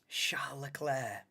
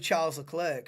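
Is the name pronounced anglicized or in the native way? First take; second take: native; anglicized. First: The name is said in its native way. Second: The name is said in an anglicized way. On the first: This is the proper way of saying it. "not for me. But that's probably how you're supposed to say it" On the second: This is the speaker's habitual way of saying it. "But I'll always go Charles Leclerc, me"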